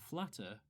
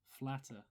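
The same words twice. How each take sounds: First: The final r sound is pronounced. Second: The final r sound is dropped.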